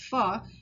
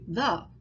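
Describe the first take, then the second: First: The word begins with an F sound. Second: The word begins with a TH sound. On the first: The speaker calls it wrong. "which he says fa" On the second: The speaker calls it right. "to the"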